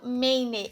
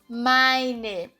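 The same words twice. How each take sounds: First: The first vowel sounds like 'ei'. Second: The first vowel sounds like 'ai'. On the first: The speaker calls it wrong. "aqui eu não falo meine" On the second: The speaker calls it right. "Ele tem som de ai"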